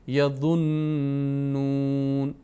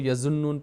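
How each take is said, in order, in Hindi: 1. z ध्वनि भारी और ज़ोरदार है। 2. z ध्वनि हल्की है, ज़ोरदार नहीं।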